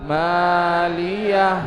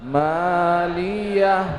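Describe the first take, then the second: No difference in how they are said.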